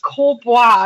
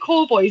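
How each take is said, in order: First: The name ends with a French-style ending. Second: The name ends like the English word boys. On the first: The speaker calls it right. "you're such an idiot, it's Corbois" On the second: The speaker calls it wrong. "I thought it was like Corboys"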